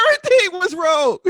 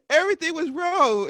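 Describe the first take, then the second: First: "Everything" said high and loud in a mocking take; imitating her wrong pronunciation. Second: Said in the usual way. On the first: Best friend's mispronounced "Everything" played up high and loud. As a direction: poke fun at how she said "Everything". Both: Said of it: "pronounced everything wrong".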